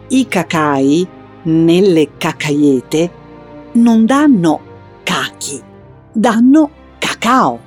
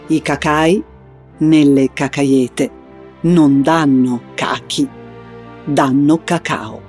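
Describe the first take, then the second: First: It is said in a clear, explaining tone. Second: It is said in a grave, solemn tone.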